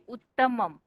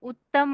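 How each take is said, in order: First: The word ends with a final m syllable. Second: The word ends without a final m syllable. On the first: The speaker calls it right. "म के ऊपर बिंदी है ना" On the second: The speaker calls it wrong. "उत्तम नहीं"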